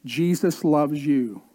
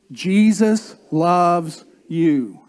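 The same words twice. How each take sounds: First: Said in the usual way. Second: Slower and louder, really meaning it; louder, slower second Jesus loves you; emphatic repeat. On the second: Shown as a demonstration. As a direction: say it again to your neighbour, slow and loud. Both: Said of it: "turn to them and say".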